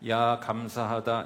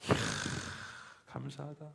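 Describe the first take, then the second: First: It is said flatly, without real feeling. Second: It is said with heartfelt, excited wonder.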